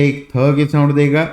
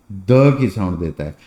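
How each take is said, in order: First: थ said as a breathy, voiceless dental th; teacher voicing थ with a clear puff of air; voiceless th sound. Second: Teacher voicing द with no puff of air; voiced d sound. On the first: Teacher contrasts थ with द for students, breathy voiceless थ. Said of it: "light जो है थ की sound देगा". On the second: Teacher contrasts द with थ for students, voiced unaspirated द. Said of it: "dark जो है द की साउंड देगा". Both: Shown as a demonstration.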